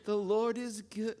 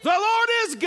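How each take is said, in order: First: It is said quietly and weakly. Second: It is said loudly, as a shout.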